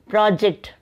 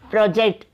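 First: The stress is on the first syllable. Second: The stress is on the second syllable. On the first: It is used as a noun. "For noun, stress is given in the first half" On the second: It is used as a verb. "second syllable is given more stress"

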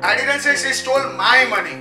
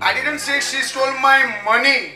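First: The stress is on the word 'my'. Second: The stress is on the word 'money'. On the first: It was somebody else's money. "It was somebody else's money" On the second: It was the whole purse that was taken. "It was entire purse"

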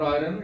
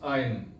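First: The 'r' is said clearly before the 'n'. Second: The 'r' is not said before the 'n'. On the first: The speaker calls it wrong. "It is not iron" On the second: The speaker calls it right. "it is iron"

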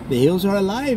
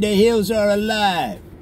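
First: It is spoken in a polite Canadian accent. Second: It is spoken in a New York accent. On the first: "maybe you have an accent from Canada and you're very polite" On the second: "maybe you have a New York accent and you say"

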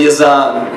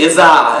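First: The name is said in a standard accent. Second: The name is said in a Boston accent. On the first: "instead of" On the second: "In Boston, we say"

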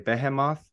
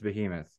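First: It is pronounced the Polish way. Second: It is pronounced the American way. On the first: This is how the band says it. "they're from Poland, and so they say Behemoth" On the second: This is how an American says it. "I'm an American. It's Behemoth"

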